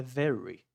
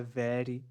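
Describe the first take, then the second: First: Very with the throaty English r; paulista R in very. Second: Very with a quick tapped r, like 'very' in Portuguese 'veri'; wrong tapped R. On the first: Teacher modelling very for students, retroflex throaty r. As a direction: say very with the r of Paulista porta, untrilled. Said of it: "Com esse R do". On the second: Teacher showing another mistake, tapped r in very. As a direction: flick the tongue on the r of very. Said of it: "não é very". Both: Shown as a demonstration.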